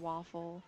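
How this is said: It is said in a general accent. "they say father and waffle"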